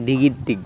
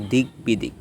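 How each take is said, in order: First: দিগির দিক with no b, di-gid-dik; wrong pronunciation. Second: দিক বিদিক with g and b both sounded, dig-bi-dik; correct pronunciation. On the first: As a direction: run the g into a doubled d in দিগির দিক. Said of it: "অনেকে দিগির দিক বলেন". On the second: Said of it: "সঠিক উচ্চারণ হচ্ছে". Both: Shown as a demonstration.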